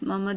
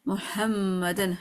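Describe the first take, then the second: First: The throaty h sound is left out. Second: The throaty h sound is clearly pronounced. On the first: The speaker calls it wrong. "देखिए मैंने हाँ नहीं बोला" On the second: The speaker calls it right. "हा क्लियर करना है"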